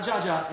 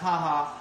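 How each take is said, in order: First: The word starts with a J sound. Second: The word starts with an H sound. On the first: The speaker calls it wrong. "It's not Jaja" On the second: The speaker calls it right. "It's haha"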